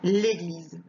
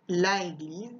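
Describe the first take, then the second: First: The article's vowel is dropped before the noun. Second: The article's vowel is kept before the noun. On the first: The speaker calls it right. "je dis" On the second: The speaker calls it wrong. "je dis pas"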